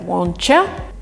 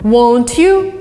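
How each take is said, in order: First: The t and y merge into a ch sound. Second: The t and y stay as separate sounds. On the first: "would be replaced by won'tcha" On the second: "won't you would be replaced by won'tcha"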